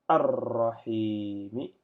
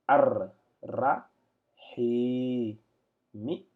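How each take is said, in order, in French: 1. Les syllabes sont liées entre elles, sans aucune pause. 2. Chaque syllabe est dite à part, avec des pauses entre elles. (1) "si je devais lire en attaché" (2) "mais en détaché"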